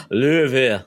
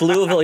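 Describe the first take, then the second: First: Louisville swallowed into "LOO-vul"; local pronunciation. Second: Said in the usual way. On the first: Shown as a demonstration. Co-host showing how Louisville is supposed to be pronounced, slurred local way. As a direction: run "Louisville" together with hardly any consonants. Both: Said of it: "supposed to pronounce it like".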